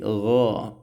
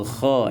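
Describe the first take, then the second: First: The consonant is a clean, voiced gh sound. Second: The consonant is a voiceless, scraping kh sound. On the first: The speaker calls it right. "tapi gha bersih ya" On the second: The speaker calls it wrong. "bukan dibaca kha ya"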